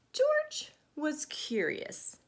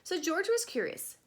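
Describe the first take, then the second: First: George was curious drawn out slowly, GEORGE stressed; slow, curious emphasis. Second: Higher, with WAS stressed and falling. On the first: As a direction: stretch out George with wonder. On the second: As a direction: lean on the word was. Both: Shown as a demonstration. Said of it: "his name is Curious George anyway".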